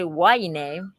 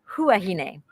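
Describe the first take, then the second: First: The word begins without any H sound. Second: The word begins with a clear H sound. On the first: This follows the French habit of dropping H. The speaker calls it wrong. "the only reason that people say huahine is because the French do not pronounce H" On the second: This is how the locals say it. The speaker calls it right. "It's actually huahine. That's the way the locals pronounce it"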